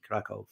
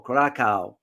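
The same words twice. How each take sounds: First: Krakow ending in a V sound; pronounced with a V. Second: Krakow ending in an "ow" sound, no V; alternate pronunciation. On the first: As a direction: say Krakow as "KRA-kov". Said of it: "it's spelled with the, with the V". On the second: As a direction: say Krakow as "KRA-kow", rhyming with cow. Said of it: "as it's pronounced". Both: Shown as a demonstration.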